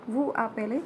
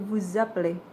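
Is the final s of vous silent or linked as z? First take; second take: silent; z. First: The s of vous is silent, no linking. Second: The s links to appelez as a z. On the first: The speaker calls it wrong. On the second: The speaker calls it right.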